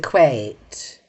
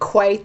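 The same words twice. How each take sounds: First: It is said in a posh British accent. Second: It is said in a plain, ordinary accent.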